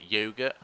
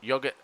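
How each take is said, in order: First: It is said in an American accent. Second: It is said in a non-American accent.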